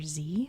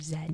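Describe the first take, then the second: First: The letter is named the American way. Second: The letter is named the non-American way. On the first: "we say the letter Z" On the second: "we don't say the letter Z"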